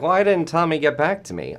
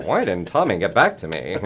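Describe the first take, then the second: First: Put-on higher, louder old-timey 1940s voice; a hint of a 1940s radio voice. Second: Said in the usual way. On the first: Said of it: "I've got this, like, old-timey, like, nineteen forties voice". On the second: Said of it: "nineteen forties voice".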